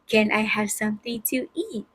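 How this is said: It is asked in a sweet, polite tone.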